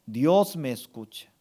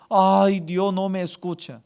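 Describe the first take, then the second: First: Low, with weight on "Dios"; firm affirmation. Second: Mock lament. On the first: Shown as a demonstration. Pastor gives congregation words to accept, low firm affirmation. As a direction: declare it as settled truth. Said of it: "Usted tiene que aceptar". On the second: Pastor voices words to eliminate, whining mock lament. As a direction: whine it like someone abandoned. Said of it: "Usted tiene que eliminar tres palabras".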